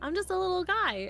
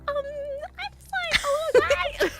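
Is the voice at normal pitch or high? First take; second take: normal; high. First: It is said at normal pitch. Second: It is said at a high, flustered pitch.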